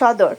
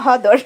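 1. শব্দটি s ধ্বনি দিয়ে শুরু হয়। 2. শব্দটি h ধ্বনি দিয়ে শুরু হয়। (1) "সবটাকে একসাথে এক কথায় বলে সদর" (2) "আমরা ব্রাহ্মণবাড়িয়ার ভাষায় বলি হদর"

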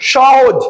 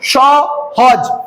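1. শব্দটি বিরতি ছাড়াই সাবলীলভাবে উচ্চারিত হয়। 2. শব্দটি সিলেবলের মাঝে বিরতি দিয়ে ভাগ করে উচ্চারিত হয়।

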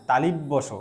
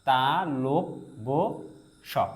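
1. দ্বিতীয় অংশটি 'li' উচ্চারিত হয়। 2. দ্বিতীয় অংশটি 'lo' উচ্চারিত হয়। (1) "কিন্তু সেটাও ভুল উচ্চারণ" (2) "এভাবে বলতে হবে"

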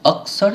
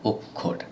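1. মধ্যবর্তী ব্যঞ্জনগুচ্ছটি k আর s এর মতো উচ্চারিত হয়। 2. মধ্যবর্তী ব্যঞ্জনগুচ্ছটি k আর kh এর মতো উচ্চারিত হয়। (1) "হিন্দিতে এই বা সংস্কৃতে কয়ে মূর্ধন্য ষ এর উচ্চারণটা আপনি অক্ষর হিসেবে পেলেও" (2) "আমরা বাংলাতে কিন্তু এটা উচ্চারণ করি অক্ষর"

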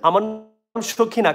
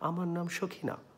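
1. এটি জোরে ও স্পষ্টভাবে বলা হয়েছে। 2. এটি আস্তে ও নিচু স্বরে বলা হয়েছে। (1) "এটা জোরে তো প্রথমে বলতে পারতেন" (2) "প্রথমে তো আসতে বলছেন"

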